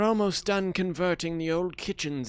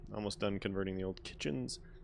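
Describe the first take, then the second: First: It is read in a put-on character voice. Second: It is read in his ordinary speaking voice. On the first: The speaker calls it right. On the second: The speaker calls it wrong.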